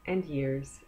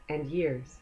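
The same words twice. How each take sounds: The two takes are said the same way.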